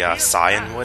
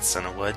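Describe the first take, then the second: First: The first part ends in 'an' before 'wood'. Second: The first part ends in 'na' before 'wood'. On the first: The speaker calls it right. "it's actually Cianwood, I believe, is how it's actually supposed to be said" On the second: The speaker calls it wrong. "but I always call it Cianwood"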